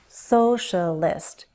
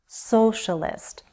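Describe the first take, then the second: No difference in how they are said.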